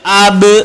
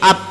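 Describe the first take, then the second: First: The final b is released with an echoing bounce. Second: The final b stops with no echoing bounce. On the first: The speaker calls it right. "Yang betul ab" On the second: The speaker calls it wrong. "Kalau tak lantun menjadi ab, salah"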